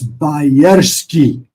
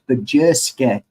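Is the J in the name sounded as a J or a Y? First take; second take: Y; J. First: The J is sounded like a Y. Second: The J is sounded like an English J. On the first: The speaker calls it right. "The J is pronounced as a Y" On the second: The speaker calls it wrong. "he would get very angry if I say it's Bajerski"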